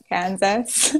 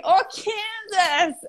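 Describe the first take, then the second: First: Said in the usual way. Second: High, drawn-out American "Kansas"; attempted American accent. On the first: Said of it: "guy was like, "What?". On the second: Finally making the guy understand, hammed-up American accent. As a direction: exaggerate an American accent, slowly, on a laugh. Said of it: "I could do for an American accent".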